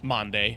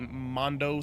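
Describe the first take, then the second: First: The word ends with an 'ay' sound. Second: The word ends with an 'oh' sound. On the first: The speaker calls it right. "it ends with an E instead of a O" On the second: The speaker calls it wrong. "I'm mispronounced"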